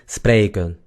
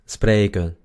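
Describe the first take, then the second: No difference in how they are said.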